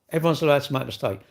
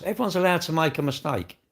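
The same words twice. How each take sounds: First: Fast, brushed-off repeat of the point; quicker repeat. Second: Said in the usual way. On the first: Shown as a demonstration. Streamer repeating the point fast to the chatter. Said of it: "repeats the line faster". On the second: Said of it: "repeats the line".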